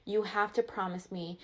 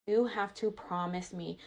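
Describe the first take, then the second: No difference in how they are said.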